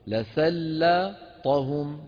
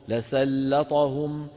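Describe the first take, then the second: First: The word is split into two parts with a break. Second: The word is said smoothly without a break. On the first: "اقطعوها مقطعين، اقرأ هذا لوحده وهذا لوحده" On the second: "بتوصلهم ببعض"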